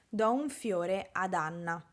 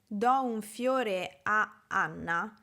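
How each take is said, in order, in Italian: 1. Un suono d unisce le due vocali a in modo fluido. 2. Le due vocali a si incontrano con una piccola pausa. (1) "per creare una pronuncia più continua, per dare più fluidità" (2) "la mia pronuncia si blocca quasi a Anna"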